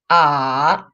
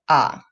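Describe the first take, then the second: First: The pitch dips low then rises again. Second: The pitch stays low and is short. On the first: "So the full third tone is" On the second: "short and low"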